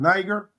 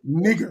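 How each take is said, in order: First: The first vowel sounds like 'eye'. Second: The first vowel is a short 'ih'. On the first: The speaker calls it wrong. "you put in some respect when you pronounce that word Niger, but there's no n- I in Greek" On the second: The speaker calls it right. "That's how you pronounce that word in Acts"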